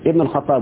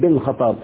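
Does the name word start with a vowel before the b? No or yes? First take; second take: Yes; No. First: A vowel is said before the b sound. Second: The word starts directly with the b sound. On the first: The speaker calls it right. "اقول عمر ابن الخطاب" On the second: The speaker calls it wrong. "بعض السعوديين يقول لك بن الخطاب ... غلط"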